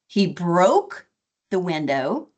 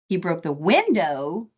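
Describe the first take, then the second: First: The stress falls on the word broke. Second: The stress falls on the word window. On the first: The window was broken, not just cracked. "as opposed to it's broken or it's cracked" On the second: It was the window, not something else. "as opposed to the window or the door or something else"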